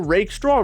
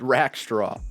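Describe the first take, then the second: First: The first syllable sounds like 'rake'. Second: The first syllable sounds like 'rack'. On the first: The speaker calls it right. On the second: The speaker calls it wrong.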